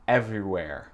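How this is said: The final R is clearly pronounced. "Ça, c'est ma prononciation"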